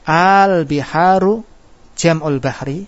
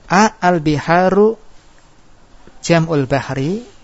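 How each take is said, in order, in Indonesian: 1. Partikelnya menyatu menjadi satu vokal yang dipanjangkan. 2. Partikelnya diucapkan terpisah, dengan jeda. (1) "Bacaannya benar bagaimana? Di idgham" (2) "kalau dibaca putus ya"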